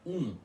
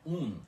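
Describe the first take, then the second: First: The U is nasalized, with no clear N. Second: The U stays oral, followed by a clear N. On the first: "com a pronúncia abafada do U nasal, que é um" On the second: "e do U seguido de N puxado, que é um"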